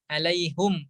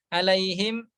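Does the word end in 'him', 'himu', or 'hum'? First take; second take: hum; him. First: The word ends in hum with a u vowel. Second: The word ends in him with no final vowel. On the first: This is the reading with a u vowel before the m. "alaihum tadi dengan dhamma" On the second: This is the reading of most reciters. "dibaca oleh kebanyakan imam"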